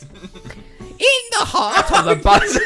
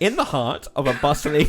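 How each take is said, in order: First: It is read in a screechy put-on voice. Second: It is read in a normal, plain voice.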